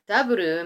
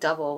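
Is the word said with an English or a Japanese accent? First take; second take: Japanese; English. First: The word is said with a Japanese accent. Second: The word is said with an English accent.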